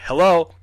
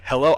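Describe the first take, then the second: First: Loud, higher retold call; louder yell. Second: Raised-voice questioning call, rising at the end; first, smaller yell. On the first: Boy calls out when nobody answers, retold louder yell. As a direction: yell hello harder, pitch jumping up. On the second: Retold or imitated. Boy in bed calls to an unseen intruder, retold restrained yell. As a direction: call out hello, loud but held back. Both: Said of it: "this time I yell a little louder".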